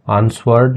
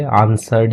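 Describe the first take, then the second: First: आंसवर्ड with the W sounded out; W pronounced. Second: आंसर्ड with no W sound; silent W. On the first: Teacher showing how not to read answered, आंसवर्ड with W voiced. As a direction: say आंसवर्ड with a "swurd" ending. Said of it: "इसको आंसवर्ड नहीं पढ़ते". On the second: Teacher showing how to read answered, आंसर्ड with silent W. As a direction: say आंसर्ड ending in a plain "serd". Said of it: "आंसर्ड ही पढ़ लेते हैं". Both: Shown as a demonstration.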